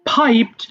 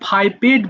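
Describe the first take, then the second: First: The ending joins the word with no extra syllable. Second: The ending is said as an extra syllable. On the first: The speaker calls it right. "আমার সাথে একবার উচ্চারণ করবা" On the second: The speaker calls it wrong. "এটা আবার ফাইপেড বলো না"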